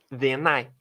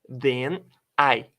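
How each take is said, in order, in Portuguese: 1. As duas palavras são ditas juntas. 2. As duas palavras são ditas separadamente.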